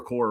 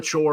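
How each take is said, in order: First: The second syllable starts with a 'k' sound. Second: The second syllable starts with a 'ch' sound. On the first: "or a core" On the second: "I don't know the proper pronunciation here, if it's a chore"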